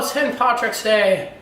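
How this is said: It is said in a put-on Irish accent.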